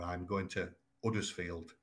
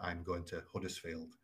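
First: The h at the start of Huddersfield is dropped. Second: The h at the start of Huddersfield is pronounced. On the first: "We also commonly drop our H's" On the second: "as opposed to"

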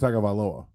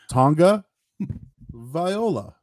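First: The name does not start with a 'Tonga' sound. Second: The name starts with a 'Tonga' sound. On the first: The speaker calls it wrong. "I was saying Tua Tagovailoa" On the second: The speaker calls it right. "but I guess it's Tonga"

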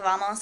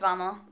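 First: The final s is pronounced clearly. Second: The final s is dropped, Chilean style.

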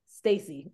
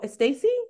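First: The name starts directly with the s sound. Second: An extra vowel sound comes before the name. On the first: The name's owner corrects the pronunciation. The speaker calls it right. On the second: Someone else mispronounces the name. The speaker calls it wrong.

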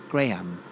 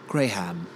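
First: It is said in an English accent. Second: It is said in an English accent.

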